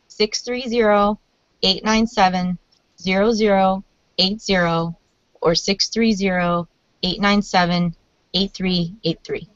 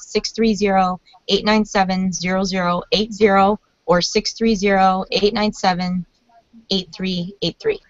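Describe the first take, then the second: First: The number is read slowly. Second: The number is read fast.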